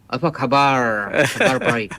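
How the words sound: It is spoken with an American-tinged accent. The speaker calls it wrong.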